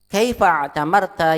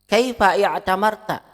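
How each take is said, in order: First: The words run straight on with no 'i'. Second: A separate 'i' vowel begins the verb. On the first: This is how it is read in connected speech. "Hamzah wasal tidak dibaca" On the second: This is the underlying original form. "Hada huwal asal"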